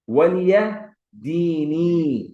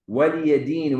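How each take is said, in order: First: The phrase ends on a long i vowel. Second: The phrase ends on the consonant n. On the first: This is the original full form. "its origin" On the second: This is the form used when stopping at the verse end. "when you stop"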